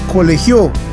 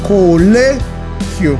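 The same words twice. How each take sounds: First: The stress is on the last syllable. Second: The stress is on the second-to-last syllable. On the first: The speaker calls it wrong. "Si la colocáramos en la última" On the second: The speaker calls it right. "El acento está en la sílaba le, o sea, en la penúltima sílaba"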